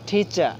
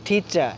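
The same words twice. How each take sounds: The two takes are said the same way.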